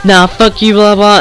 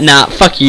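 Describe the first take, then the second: First: Higher-pitched mimicry of her retort; mocked angry girl. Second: Said in the usual way. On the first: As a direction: throw her words out in a high mocking voice. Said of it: "And then she's like". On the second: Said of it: "And I was like".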